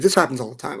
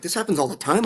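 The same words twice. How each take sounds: First: Said in the usual way. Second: Incredulous question, pitched higher; a rising, shocked echo; stunned disbelief. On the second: Retold or imitated. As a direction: echo it back, not believing it. Echoing her words in disbelief.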